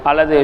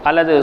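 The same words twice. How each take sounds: No difference in how they are said.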